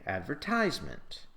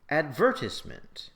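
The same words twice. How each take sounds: First: It uses the American stress pattern. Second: It uses the British stress pattern. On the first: "if you're an American, you'll say" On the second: "if you're British, you'll say"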